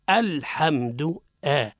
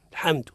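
First: الحمد slowly, with a firm glottal "a" onset; correct clear hamza. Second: الحمد said short, starting straight on the l; swallowed hamza. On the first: Teacher shows what to say after pausing, deliberate hamza. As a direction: sound the hamza of الحمد fully, drawn out. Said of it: "هذا هو الصواب". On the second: Teacher mimics reciter after the basmala, hamza-swallowing mistake. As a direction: drop the opening hamza of الحمد. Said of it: "يأكل الهمزة". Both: Shown as a demonstration.

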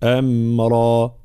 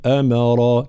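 First: أمرا with a smooth م, no bounce, slow; correct pronunciation. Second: أمرا with a bouncing م, wrongly; don't bounce the م in أمرا; wrong qalqala. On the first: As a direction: say أمرا cleanly without qalqala. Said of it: "الميم ليست من حروف القلقلة". (الميم بلا قلقلة) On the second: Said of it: "فلا نقول أمرا". (قلقلة خاطئة في الميم) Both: Shown as a demonstration.

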